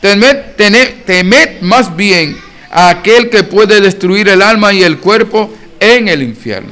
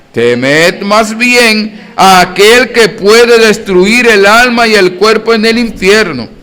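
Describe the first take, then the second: No difference in how they are said.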